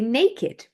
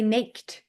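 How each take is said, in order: First: The ending is a separate extra syllable. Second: The ending is a single consonant sound. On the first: The speaker calls it right. "We also say naked" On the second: The speaker calls it wrong. "We don't say naked"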